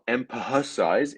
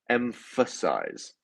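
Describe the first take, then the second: First: The middle consonant is not an f sound. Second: The middle consonant is a clear f sound. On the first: The speaker calls it wrong. "Notice here how it's not emphasize" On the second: The speaker calls it right. "So the ph makes a f sound"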